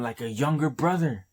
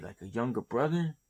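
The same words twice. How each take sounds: First: Said in the usual way. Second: Quick, disbelieving repeat of "like a younger brother"; incredulous echo. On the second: Shown as a demonstration. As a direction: throw it back as a puzzled question, faster.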